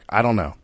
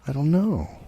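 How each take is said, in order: First: It is said flat, with no emotion. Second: It is said with a strong emotion.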